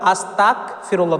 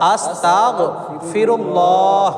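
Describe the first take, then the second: First: It uses a hard k sound after 'asta'. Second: It uses a guttural gh sound after 'asta'. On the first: It means wanting to become a disbeliever. The speaker calls it wrong. "এই জায়গায় যদি আমরা আস্তাক বলি, মানে তয় আকার ক বলে ফেলি, বাংলায় ক বলে ফেলি আর আরবিতে কাফ" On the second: It means seeking forgiveness. The speaker calls it right. "উচ্চারণটা সহি শুদ্ধ হবে আস্তাগ ফিরুল্লাহ... আরবিতে গয়ন উচ্চারণ হবে"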